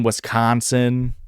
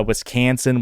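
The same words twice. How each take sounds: First: Wisconsin with a long open "ah" in the middle; drawn-out open vowel in Wisconsin. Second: Wisconsin with middle vowel as in cat; fronted "a" in Wisconsin; accented Wisconsin. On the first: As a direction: say Wisconsin slowly as "wis-KAHN-sin". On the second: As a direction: say Wisconsin as "wis-KAN-sin". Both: Shown as a demonstration. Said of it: "those accents".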